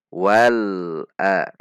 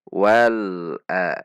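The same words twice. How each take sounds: No difference in how they are said.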